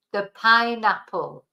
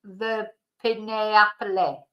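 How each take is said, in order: First: "pineapple" as PINE-ap-ul; long i and silent e's in "pineapple"; correct English pronunciation. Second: "pineapple" read letter by letter, pee-neh-AP-leh; slow Spanish-style spelling reading of "pineapple"; mispronounced pineapple. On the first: Teacher correcting the spelling reading, "pineapple" as PINE-ap-ul. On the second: Teacher showing learners what to avoid, "pineapple" as pee-neh-ap-leh. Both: Shown as a demonstration.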